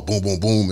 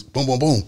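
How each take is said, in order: First: Slightly more spaced-out "boom, boom, boom"; drawn-out gunshots. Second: Quicker, higher "boom, boom, boom"; rapid gunshots. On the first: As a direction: give each "boom" a little room. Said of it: "It ain't no". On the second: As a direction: run each "boom" quickly into the next. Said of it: "it's seconds". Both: Shown as a demonstration.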